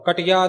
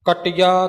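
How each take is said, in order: First: The t sound is short and single. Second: The t sound is slightly doubled. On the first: The speaker calls it wrong. "नहीं" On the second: The speaker calls it right. "थोड़ा जिहा अधिक लग के उचारण होवेगा"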